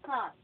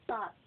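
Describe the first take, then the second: First: "thought" with a TH at the start, said louder; stressed, airy TH opening on "thought"; TH sound. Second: "Thought" said as taught, with a hard T; "Thought" pronounced like taught; T sound. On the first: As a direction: push air through the TH of "thought". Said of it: "T H sounds". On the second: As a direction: start "Thought" with a plain T, no TH. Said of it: "letter T lang siya". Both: Shown as a demonstration.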